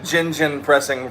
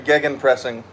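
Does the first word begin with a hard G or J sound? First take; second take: J sound; hard G. First: The word begins with a J sound. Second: The word begins with a hard G sound. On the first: The speaker calls it wrong. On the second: The speaker calls it right.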